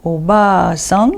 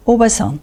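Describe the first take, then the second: First: Slow obaa-san, ba drawn out; long second A in obaa-san. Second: Oba-san with a quick ba; no lengthening of ba in oba-san, ending on a fall; short A in oba-san. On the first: Teacher repeats the contrast, long A in obaa-san. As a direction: hold the ba of obaa-san, then rise. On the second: Teacher repeats the contrast, short A in oba-san. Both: Shown as a demonstration. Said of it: "Je répète".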